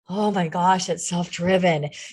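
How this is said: It is said in an overwhelmed, frightened tone. Working on your own is an overwhelming burden.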